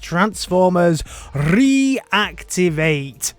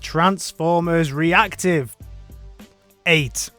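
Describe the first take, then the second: First: The ending is said as one word, activate. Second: The ending is said as a separate word, eight. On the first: The speaker calls it right. "of course, it is Transformers Reactivate" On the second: The speaker calls it wrong. "people tell me that I was saying it wrong"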